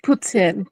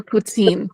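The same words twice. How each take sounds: First: Short -tin ending on poutine, said slowly; poutine pronounced POO-tin. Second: Put-on long -teen ending on poutine; poutine pronounced poo-TEEN. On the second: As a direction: demonstrate poutine slowly with a drawn-out -teen. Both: Shown as a demonstration. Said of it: "how do you pronounce it?".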